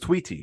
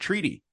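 First: The word is said with a w sound. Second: The word is said with a plain r sound.

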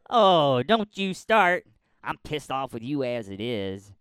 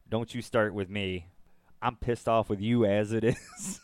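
First: It is said in a put-on Hawkeye voice. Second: It is said in his natural voice.

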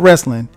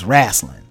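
First: It is said in a standard accent. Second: It is said in a Southern US accent.

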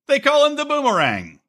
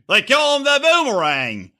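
First: It is said in the speaker's usual accent. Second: It is said in an Australian accent.

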